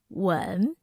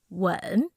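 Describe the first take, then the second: No difference in how they are said.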